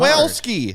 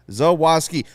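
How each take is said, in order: First: The name is said with an L before -ski. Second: The name has no L or R before -ski. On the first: The speaker calls it wrong. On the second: The speaker calls it right.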